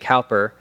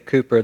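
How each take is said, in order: First: It is said the American way, like cow. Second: It is said the British way, like Cooper.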